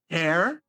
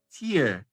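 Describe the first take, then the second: First: It is pronounced as the word meaning rip. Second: It is pronounced as the word meaning teardrop. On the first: To rip something apart. "que é rasgar" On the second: A drop from the eye. "que é uma lágrima"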